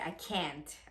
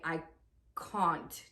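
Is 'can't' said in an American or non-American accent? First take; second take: American; non-American. First: The vowel in can't is American. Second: The vowel in can't is non-American. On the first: "American people would say" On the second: "We pronounce A's, so we would say"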